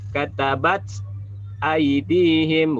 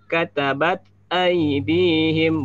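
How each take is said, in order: First: The t is followed by an s-like hiss. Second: The t releases with breath and no added s. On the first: The speaker calls it wrong. "bukan katabat aidihim, bukan begitu ya" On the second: The speaker calls it right. "jangan jadikan seolah-olah ada huruf sin di setelah tak hamasnya"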